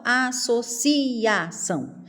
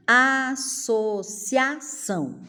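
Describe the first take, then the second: First: "associação" as a-so-CI-A-ção; split vowels. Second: "Associação" slowly as a-so-CIA-ção; one beat for cia; joined vowels. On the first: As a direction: separate ci from a. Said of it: "Eu não falo". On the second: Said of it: "pronuncio uma sílaba só". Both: Shown as a demonstration.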